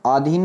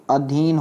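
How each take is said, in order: First: आधीन said "aa-dheen", long opening; long-aa mispronunciation. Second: अधीन said "a-dheen", short opening; short-a correction. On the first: Teacher shows the error, आधीन as "aa-dheen". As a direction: stretch the first vowel of आधीन. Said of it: "आ नहीं". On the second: Teacher corrects students, अधीन as "a-dheen". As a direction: keep the first vowel of अधीन short. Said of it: "ऐसा बनेगा अधीन". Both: Shown as a demonstration.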